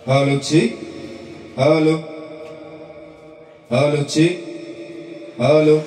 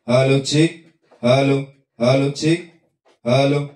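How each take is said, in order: First: The voice has a plate reverb tail. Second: The voice is plain, with no added effect.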